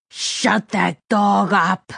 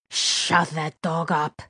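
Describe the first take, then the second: First: Slow, forceful, every word leaned on; angry villain order. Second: Quiet menace. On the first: Gunman grabbing captive by the collar, angry order. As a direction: repeat the order with rising anger, very slowly. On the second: Gunman annoyed by a barking dog, quiet menace. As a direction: give the order slowly, with controlled threat. Villain orders, first take quiet. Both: A narrator's reading.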